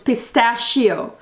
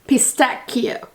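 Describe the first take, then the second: First: The middle consonant is not a k sound. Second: The middle consonant is a hard k sound. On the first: This is the English pronunciation. "it's pistachio in English" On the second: This is the Italian pronunciation. "and Italian it's cut sound"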